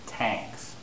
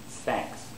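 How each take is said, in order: First: The word begins with a T sound. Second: The word begins with a TH sound. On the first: The speaker calls it wrong. "they'll make T as a mistake" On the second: The speaker calls it right. "They should pronounce thanks"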